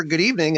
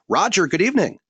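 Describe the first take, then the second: First: Said in the usual way. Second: Loud greeting. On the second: Real, not acted. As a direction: call out "Roger, good evening" high and loud.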